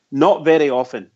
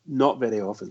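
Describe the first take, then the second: First: Said in the usual way. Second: Dropped to a quiet rueful mutter; muttered repeat. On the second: Real, not acted. Pundit repeating himself quietly in dismay. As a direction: repeat it under your breath, much softer.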